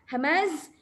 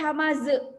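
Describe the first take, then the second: First: The word stops on a clear, hissing z. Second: An extra vowel is added after the final z. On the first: The speaker calls it right. "Ini tak nak tu, ya. Hamaz. So kita kena dengar jelas ya dia punya sofir" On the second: The speaker calls it wrong. "dia tak boleh hamaza. Beza kan? Yang selalu orang buat hamaza"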